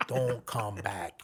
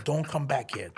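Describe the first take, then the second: First: Said slowly and firmly, every word weighted; slow firm repeat. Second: Laughing warning. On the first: Manny telling the woman off for the last time, slow and firm. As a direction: spell out "Don't come back" slowly. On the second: Telling woman off. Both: Retold or imitated.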